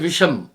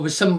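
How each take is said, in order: First: The middle consonant is an 'sh' sound. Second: The middle consonant is a plain 's' sound. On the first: The speaker calls it right. "जैसे विषम" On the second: The speaker calls it wrong. "वो विषम बोल रहा था"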